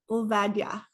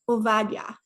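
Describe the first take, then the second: Both takes have the same delivery.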